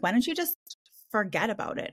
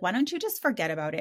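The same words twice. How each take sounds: First: Mock Valley Girl, pitched up then dropping. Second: Said in the usual way. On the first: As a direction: put on a breezy Valley Girl lilt. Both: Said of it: "with their freaking Valley Girl voice".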